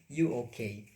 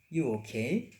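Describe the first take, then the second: First: It is said as a flat statement. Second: It is said as a question. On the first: It states that the person is okay. "so the explanation" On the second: It asks whether the person is okay. "But if we change our intonation, ... that's change become question"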